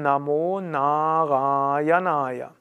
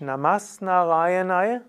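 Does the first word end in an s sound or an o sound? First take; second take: o sound; s sound. First: The first word ends in an o sound. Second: The first word ends in an s sound. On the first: The speaker calls it right. "dann wird das As zu O" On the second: The speaker calls it wrong. "Da sagt man nicht"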